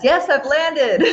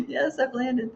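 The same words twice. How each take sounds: First: Reading it out through a laugh. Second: Said in the usual way. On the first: Real, not acted. Host laughing as she reads a viewer's message. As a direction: laugh while saying it.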